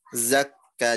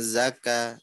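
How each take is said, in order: First: The k sound is held long and doubled. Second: The k sound is short and single. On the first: The speaker calls it right. "Kafnya tasydid" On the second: The speaker calls it wrong. "jangan zaka"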